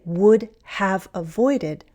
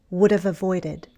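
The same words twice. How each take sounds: First: 'Would have' is said as two full words. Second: 'Would have' is reduced and run together. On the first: "I didn't say would have avoided" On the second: "I say would have"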